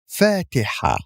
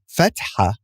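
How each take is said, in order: First: The first vowel is lengthened. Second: The first vowel is short. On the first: The speaker calls it right. "with extending the fatha" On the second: The speaker calls it wrong. "It's not fatha"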